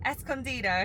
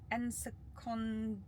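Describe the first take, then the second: First: Escondido said es-con-DEE-do, Spanish vowels; corrected pronunciation. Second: Ensacondo said slowly as en-sa-CON-do, unsure; stumbling over Ensacondo, en-sa-CON-do; mispronounced. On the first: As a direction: Escondido fixed as es-con-DEE-do after prompt. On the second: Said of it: "Oh, I'm gonna mess this up". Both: Shown as a demonstration.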